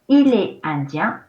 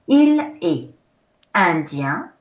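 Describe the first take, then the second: First: The sentence is spoken at normal speed. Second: The sentence is spoken slowly and deliberately.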